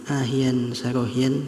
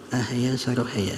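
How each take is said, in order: First: Each word ends with a nasal 'yan' sound. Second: Each word ends with an open 'ya' sound. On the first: This is the reading others pass on. "ada yang mengijazahkan ahyan sarohyan" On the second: This is the reading the speaker passes on. "tapi ini saya mengijazahkan ahaya sarohaya"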